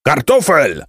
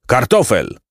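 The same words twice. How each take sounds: First: Higher, more forceful roll-call bellow; bellowed name. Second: Name called out, moderately raised; first, restrained call of a name; roll-call call. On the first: Captain calls for Kartofel who has not answered, bellowing. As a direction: boom out the missing man's name. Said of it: "huknął kapitan". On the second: Captain calls Kartofel at roll call, restrained call. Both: A narrator's reading.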